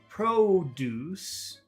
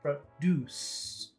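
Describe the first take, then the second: First: Both syllables are said long. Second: The first syllable is short, the second long. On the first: It is a noun meaning fresh fruits and vegetables. "If you make both of the uh, syllables long" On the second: It is a verb meaning to make something. "short, long"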